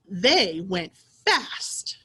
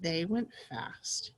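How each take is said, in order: First: It is read loudly in an excited voice. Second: It is read in a plain, calm voice. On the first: The speaker calls it right. "you read like you're excited, almost like you're yelling" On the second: The speaker calls it wrong. "instead of saying"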